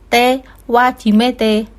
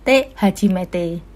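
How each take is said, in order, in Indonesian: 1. Kata kedua diawali dengan bunyi w. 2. Kata kedua diawali dengan bunyi h. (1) "Jangan sampai salah baca te wajimete, salah ya" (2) "dibaca te hajimete"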